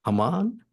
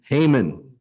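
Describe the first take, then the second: First: Haman as HAH-mahn, asked with a rising question; "Haman" in a broad ah vowel, tentatively questioning; unsure Haman. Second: "Haman" said as HAY-mun, settled and falling; "Haman" as HAY-mun, a touch louder, agreeing; corrected Haman. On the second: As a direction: repeat "Haman" with a long ay vowel, accepting the fix. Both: Real, not acted.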